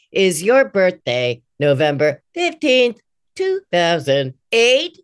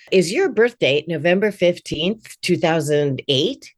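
First: Slow, evenly spaced robot prompt. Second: Eight read as a natural question, two thousand eight rising gently. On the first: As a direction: read it like a stiff robot. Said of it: "it doesn't sound like a robot voice". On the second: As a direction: human phone prompt asking two thousand eight. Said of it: "make that eight be". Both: Shown as a demonstration.

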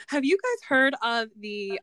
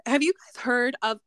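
First: Said in the usual way. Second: Cracking voice, real glitch. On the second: Real, not acted. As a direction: voice breaks mid-question. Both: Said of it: "I don't know what happened to my voice".

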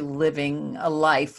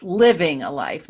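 First: Said in the usual way. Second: "living" punched louder; stress on LIVING. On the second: Real, not acted. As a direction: lean hard on "living" to set it apart. Repeats phrase to contrast with existing.

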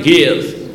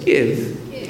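First: "Give" in an American accent; demonstrated American pronunciation of "Give". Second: Soft, low British "Give"; attempted English accent on "Give". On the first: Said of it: "like an American". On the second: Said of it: "like a British person". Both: Shown as a demonstration.

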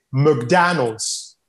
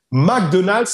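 First: Very slow McDonald's, said Mc-DAN-alds with an uh first vowel; McDonald's drawn out with an American accent, stress on DAN. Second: McDonald's said the French way, Mac-Do-nald with every syllable even; McDonald's with a French accent, all syllables equal; French-style McDonald's. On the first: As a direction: sound out McDonald's slowly like an American. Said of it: "en anglais, en tout cas aux États-Unis". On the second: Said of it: "il faut se concentrer sur le son des voyelles". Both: Shown as a demonstration.

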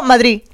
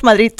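First: "Madrid" without its last D, like Madrí; dropped final D. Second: "Madrid" ending in a hard T, like Madrit; Catalan final T. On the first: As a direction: end "Madrid" on an open stressed i. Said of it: "Sin la D directamente". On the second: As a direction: harden the last D of "Madrid" to T. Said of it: "en Cataluña decimos Madrid". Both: Shown as a demonstration.

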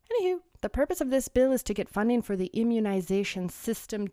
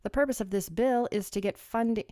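First: Said in the usual way. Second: Light put-on English accent reading the bill. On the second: Vlogger reading the bill to viewers in a mild English accent. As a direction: read it like a Brit, a touch hammy. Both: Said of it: "I love doing an English accent".

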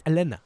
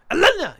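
First: Said in the usual way. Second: Loud, high Elena! as a curse; shouted curse. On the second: Shown as a demonstration. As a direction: yell Elena! like swearing. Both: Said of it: "not even satisfying to say that".

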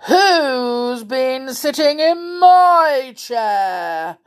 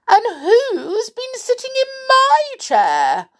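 First: Big, slow, loud bear roar; angry growling bear. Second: High, loud, indignant bear voice; Mother Bear's cry. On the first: Father Bear finding his chair sat in, angry growl. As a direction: growl it out long and indignant. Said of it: "he growled angrily". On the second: Mother Bear finding her chair sat in, crying out. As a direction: cry out far above your usual pitch. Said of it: "cried Mother Bear". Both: A narrator's reading.

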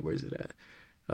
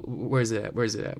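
First: Whispering to himself; breathy slow whisper. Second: Said in the usual way. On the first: Real, not acted. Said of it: "searching, repeats under breath". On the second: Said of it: "searching for drum roll sound".

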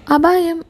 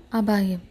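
First: Raised and louder, sounding the alarm; urgent warning call. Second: Softer, lower, falling to a hush; low ominous echo. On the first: Narrator announcing the chapter title as an urgent alarm. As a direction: call out the danger like a warning bell. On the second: Narrator echoing the chapter title in an ominous hush. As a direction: let the word sink like a grim echo. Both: A narrator's reading.

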